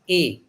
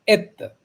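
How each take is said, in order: First: The word ends on a vowel, no t. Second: The word ends with a clear t sound. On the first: The speaker calls it right. "Et is pronounced as a" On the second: The speaker calls it wrong. "वो एत पढ़ते हैं, एत. That is wrong"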